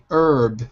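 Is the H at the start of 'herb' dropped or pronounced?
dropped. The word begins without an H sound. "in American English, we say herb without the H"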